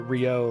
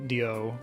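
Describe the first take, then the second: First: The name starts with an English R sound. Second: The name starts with a sound between D and R. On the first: "like I say" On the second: "kind of like a D R sound"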